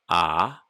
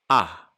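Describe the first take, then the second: First: The vowel is held a medium length. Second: The vowel is cut short.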